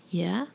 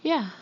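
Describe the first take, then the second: First: YEAH turned back as a rising question. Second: Put-on high, eager children's cry; short high cheer, falling at the end. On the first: Father challenges children's answer, questioning YEAH with rising pitch. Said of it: "the father asked". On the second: Children answer father's ready check, crying out. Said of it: "his children cried". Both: A narrator's reading.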